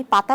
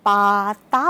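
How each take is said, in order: First: Said in the usual way. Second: পাতা stretched long and loud, syllable by syllable; elongated, louder পাতা; drawn-out, sing-song demo. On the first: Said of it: "পাতা বলতে যেই সময় লাগবে". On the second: Shown as a demonstration. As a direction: say পাতা slowly, holding each vowel as if teaching a child. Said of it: "সুরে সুরে বাচ্চাটাকে বলানোর চেষ্টা করি".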